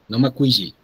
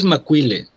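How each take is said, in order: First: The double consonant is a Y-like sound. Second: The double consonant is a plain L sound. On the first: The speaker calls it wrong. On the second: The speaker calls it right. "De hecho, es Macuile"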